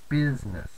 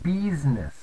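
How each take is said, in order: First: The first vowel is a short 'i' sound. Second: The first vowel is a long 'ee' sound. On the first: "instead of business" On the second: "they tend to go towards the E version. So business"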